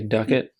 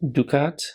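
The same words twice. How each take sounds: First: It is pronounced the American way. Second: It is pronounced in a non-American way.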